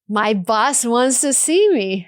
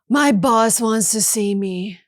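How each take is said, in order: First: The voice sounds happy and hopeful. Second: The voice sounds frustrated and weary. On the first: The speaker expects good news. "feels like I'm about to get good news, maybe even a promotion" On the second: The speaker is fed up with the boss. "feels like I'm frustrated or tired of my boss"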